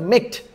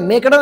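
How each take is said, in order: First: The ending is a short t sound, no syllable. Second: The ending is an extra syllable like 'ed'. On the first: The speaker calls it right. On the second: The speaker calls it wrong. "मेकडं नाही"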